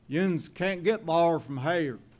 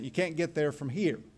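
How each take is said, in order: First: It is said in a North Carolina hills accent. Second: It is said in the speaker's own accent.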